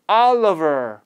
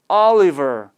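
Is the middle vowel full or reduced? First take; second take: reduced; full. First: The middle vowel is reduced to a schwa. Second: The middle vowel is full, like 'liver'. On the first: The speaker calls it right. "어로 약화가 돼서" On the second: The speaker calls it wrong. "Oliver가 아니라"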